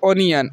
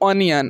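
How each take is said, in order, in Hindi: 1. पहला स्वर गोल 'oh' ध्वनि है। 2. पहला स्वर गोल 'oh' ध्वनि है।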